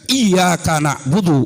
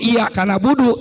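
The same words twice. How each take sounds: First: The y sound is held long and doubled. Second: The y sound is short and single. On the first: Only you we worship. The speaker calls it right. "harus ada tasdidnya, dibunyikan" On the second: Only the sun I worship. The speaker calls it wrong. "tidak ada tasdidnya"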